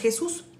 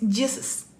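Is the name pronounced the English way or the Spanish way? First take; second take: Spanish; English. First: The name is pronounced the Spanish way. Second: The name is pronounced the English way. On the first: "aquí es Jesús y en toda Latinoamérica es Jesús" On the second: "pero en Estados Unidos es Jesus"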